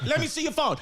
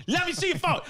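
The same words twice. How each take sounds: First: Insistent, higher "let me see your phone"; pushy jealous partner; nagging demand. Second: Even higher, more insistent repeat; higher nagging demand. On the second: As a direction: pushier jealous partner, escalating. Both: Retold or imitated. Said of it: "you're like".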